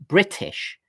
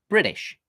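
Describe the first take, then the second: First: The t is aspirated with a hissing release. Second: The t is softened, sounding almost like d. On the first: "the typically British way to pronounce that word is British. And as you can hear, I've got an aspirated, somewhat sibilant t sound" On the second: "there it's almost a d sound"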